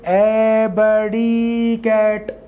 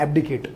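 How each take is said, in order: First: The word is said slowly, drawn out. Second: The word is said at normal speed.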